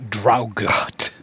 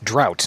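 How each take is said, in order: First: The gh is sounded out in the word. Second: The gh is silent in the word. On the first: The speaker calls it wrong. "not Draugot" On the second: The speaker calls it right. "it's drought"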